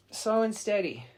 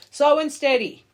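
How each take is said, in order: First: Said in the usual way. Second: Slow and steady, called out high and loud; emphatic slogan. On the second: Shown as a demonstration. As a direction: say it like a proud motto.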